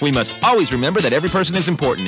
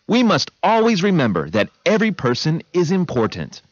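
First: It is said as fast as possible. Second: It is said at a normal pace.

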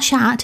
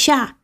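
First: The final T is pronounced. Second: The final T is silent. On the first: The speaker calls it wrong. "I kept pronouncing the T in cat. It's not chat" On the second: The speaker calls it right. "it's chat"

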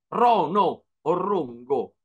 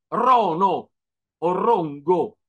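Both takes have the same delivery.

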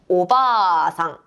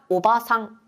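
First: The vowel after 'b' is held long. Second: The vowel after 'b' is kept short. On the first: It means grandmother. "할머니는 오바상" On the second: It means aunt or middle-aged woman. "아줌마는 뭐라고요?"

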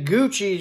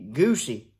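First: The middle consonant is a ch sound. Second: The middle consonant is an s sound. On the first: "sound like got an H in it" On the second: "I thought that ought to be Goosey"

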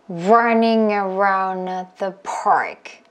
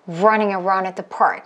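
First: It is said at a slower pace. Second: It is said at a faster pace.

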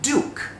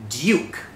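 First: It is said in an American accent. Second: It is said in a British accent. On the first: "ถ้าเกิดสำเนียงอเมริกันล่ะอ่านว่าอะไรอ่านว่า" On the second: "สำเนียงอังกฤษอ่านว่า"

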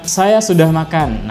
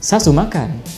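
First: Plain standard delivery with a level ending. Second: Regional accent with the ending stressed and raised.

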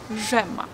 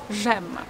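The two takes are said the same way.

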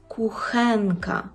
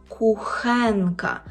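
Both takes have the same delivery.

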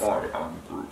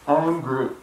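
First: It is said in a put-on Groot voice. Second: It is said in his normal voice.

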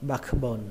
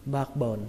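First: The k sound is clearly pronounced. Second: The k sound is dropped in fast speech. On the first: "các bạn có thể đọc có âm k" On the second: "đọc nhanh thì các bạn không cần âm k"

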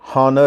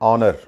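First: The word starts with an h sound. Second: The word starts with a vowel, no h sound. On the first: The speaker calls it wrong. "అలాగే హానర్ అంటారు, అది హానర్ కాదు" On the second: The speaker calls it right.

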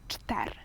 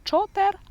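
First: No vowel is heard between ch and t. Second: A vowel is heard between ch and t. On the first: The speaker calls it right. "а чтер" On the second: The speaker calls it wrong. "Говоримо не чотер"

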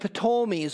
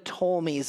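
First: The word begins with an audible P sound. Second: The word begins with a plain T sound. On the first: "I say the P" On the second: "as some say"

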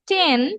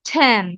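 First: The t is said without a puff of air. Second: The t is said with a puff of air. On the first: The speaker calls it wrong. "যতগুলো ট বলতাম আমরা এতদিন" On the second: The speaker calls it right. "সবগুলো টকে ঠ বলবো"

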